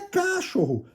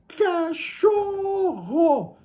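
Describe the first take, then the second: First: The stress is on the first syllable. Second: The stress is on the middle syllable. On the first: The speaker calls it wrong. "não é cachorro" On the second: The speaker calls it right. "é cachorro. Então a sílaba tônica é a sílaba do meio"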